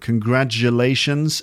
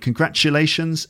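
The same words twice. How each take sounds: First: The middle consonant is a voiced j sound. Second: The middle consonant is a voiceless ch sound. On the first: This is the American pronunciation. "So it's more of a j sound" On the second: This is the British pronunciation. "So I'm saying congratulations"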